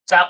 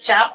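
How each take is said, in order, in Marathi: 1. हा शब्द दंत्य 'ts' आवाजाने सुरू होतो. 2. हा शब्द तालव्य 'ch' आवाजाने सुरू होतो. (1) "चाप म्हणजे चिमटा" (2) "उच्चार जर चाप केला तर धनुष्य"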